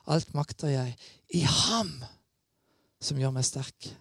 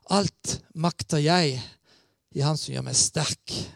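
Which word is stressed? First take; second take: ham; jeg. First: The stress falls on the word ham. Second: The stress falls on the word jeg. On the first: The strength comes from God, not oneself. The speaker calls it right. "Hele betoningen må være på han" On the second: The strength comes from oneself. The speaker calls it wrong. "noen kan ha en fristelse til å sitere det verset sånn"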